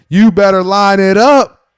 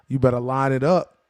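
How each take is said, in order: First: Higher, louder, slow shouted warning; mock coach yell. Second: Said in the usual way. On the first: Coach Tomlin yells at his players, loud and slow. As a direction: bark it like a fired-up coach. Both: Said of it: "Mike Tomlin just coming out and setting the tone and saying".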